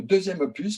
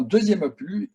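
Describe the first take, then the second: First: "opus" with the final s sounded; corrected opus. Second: "opus" said without its final s; mispronounced opus. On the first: Director correcting himself about the sequel, "opus" with sounded final s. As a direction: say "opus" ending on a clear s. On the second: Director correcting a slip on the sequel's name, "opus" with silent s. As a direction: slip on "opus", dropping the closing s sound. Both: Real, not acted.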